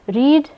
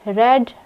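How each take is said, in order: First: The vowel is long, like reed. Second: The vowel is short, like red. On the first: It is the present form of the verb. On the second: It is the past form of the verb.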